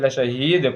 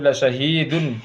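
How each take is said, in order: First: The word ends with a bare silent 'd'. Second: The word ends with a voweled 'dun' ending. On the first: The speaker calls it right. "लशहीद पढ़ेंगे" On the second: The speaker calls it wrong. "तो लशहीदुन नहीं पढ़ेंगे"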